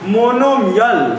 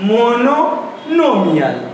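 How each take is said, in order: First: The syllable 'no' is said only once. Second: The syllable 'no' is said twice in a row. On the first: The speaker calls it wrong. "इसको पढ़ता है मोनोमियल, ऐसे पढ़ता है, बकलो लगेगा" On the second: The speaker calls it right. "मोनो फिर से नोमियल"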